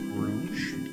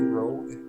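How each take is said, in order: First: It is said like the word rouge. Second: It is said like the word rogue. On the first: It follows how the name is spelled. "pronounce it rouge, as that is technically how it is uh, spelled" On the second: It is the name as originally intended. "I meant it to be rogue"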